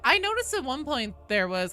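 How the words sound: It is said in a Valley Girl voice.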